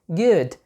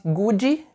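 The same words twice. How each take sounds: First: GOOD in one syllable, ending on D; correct pronunciation of good. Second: GOOD stretched to two syllables, "goo-djee"; mispronounced good. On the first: Teacher repeats the right version, good correctly pronounced. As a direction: stop "good" on the D, no extra vowel. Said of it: "eu falei com a pronúncia certa". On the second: Teacher demonstrates the error, good mispronounced. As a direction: tack an EE onto the end of "good". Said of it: "você tá errando na pronúncia". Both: Shown as a demonstration.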